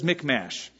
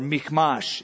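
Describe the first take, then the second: First: The name is said with an English-style pronunciation. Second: The name is said with a Hebrew-style pronunciation. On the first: "it says Michmash" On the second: "if you want to be more Hebraic"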